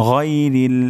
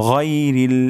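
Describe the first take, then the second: The two takes are said the same way.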